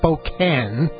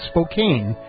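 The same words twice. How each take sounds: First: The last syllable has a short vowel, like 'can'. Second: The last syllable has a long vowel, like 'cane'. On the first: It is how locals say the city name. The speaker calls it right. "instead of Spokane" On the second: It follows the usual English spelling rule. The speaker calls it wrong. "I made the mistake... of pronouncing it Spokane"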